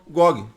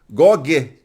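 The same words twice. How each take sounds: First: The word ends on a bare g sound. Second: The final g is followed by a vowel sound. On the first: "você escreve Gog, é G O G" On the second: "G O G U E. ... porque você botou o som da letra completa"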